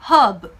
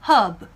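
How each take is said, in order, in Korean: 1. 중간의 r은 묵음이에요. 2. 중간의 r은 묵음이에요.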